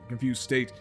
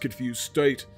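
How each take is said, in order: First: The phrase has a natural, ordinary intonation. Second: The phrase has an odd, unnatural intonation. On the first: The speaker calls it right. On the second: The speaker calls it wrong.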